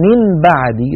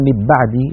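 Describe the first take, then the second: First: من بعدي with a clear separate n; wrong clear nun. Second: من بعدي with the m fully merged into b; wrong merging. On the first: Teacher shows the wrong izhar version. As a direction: pronounce من بعدي with a distinct n. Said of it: "ولو قلنا". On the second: Teacher shows the wrong idgham version. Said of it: "لو قلنا". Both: Shown as a demonstration.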